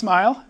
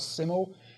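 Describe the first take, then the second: First: The word is said with one syllable. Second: The word is said with two syllables. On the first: The speaker calls it right. "but it's pronounced smile" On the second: The speaker calls it wrong. "I thought it was called simul"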